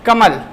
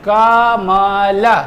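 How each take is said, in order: First: The word is said quickly as one unit. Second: The word is said slowly, sound by sound. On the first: "जल्दी से बोल दिया" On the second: "इस तरीके से बोलेंगे"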